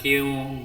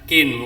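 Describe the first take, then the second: First: The n sound is dropped and merges into w. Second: The n sound is pronounced clearly. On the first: The speaker calls it wrong. "bukan kiu" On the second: The speaker calls it right. "idhar kin"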